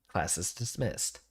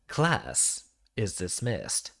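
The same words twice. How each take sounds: First: It is said in a casual, plain way. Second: It is said in a firm, assertive way.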